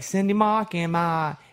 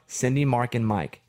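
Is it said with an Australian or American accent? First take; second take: Australian; American. First: It is said with an Australian accent. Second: It is said with an American accent.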